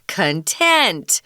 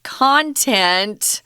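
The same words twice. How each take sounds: First: The stress is on the second syllable. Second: The stress is on the first syllable. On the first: Satisfied and happy. "the stronger syllable is on tent" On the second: What is inside something. "the same word can be pronounced content"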